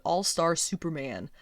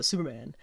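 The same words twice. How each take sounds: First: All-Star Superman enunciated word by word; careful enunciation. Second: Superman run together, low and soft; slurred Superman. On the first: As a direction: say All-Star Superman clearly, without slurring. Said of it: "slurring my words a little bit". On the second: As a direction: slur Superman into one quick mumble. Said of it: "I feel like I slur Superman". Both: Shown as a demonstration.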